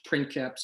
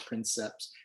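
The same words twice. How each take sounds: First: The C is pronounced as a K sound. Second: The C is pronounced as an S sound. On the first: This is the ancient pronunciation. "It's a K sound in, in, in the ancient languages" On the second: This is a later, modern pronunciation. "We have it as an S sound at times"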